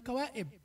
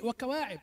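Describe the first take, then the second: First: The middle consonant is a glottal stop. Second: The middle consonant is a voiced throat sound. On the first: The speaker calls it wrong. "لا تقل وكوائب" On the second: The speaker calls it right. "وكواعب عين وليست همزة"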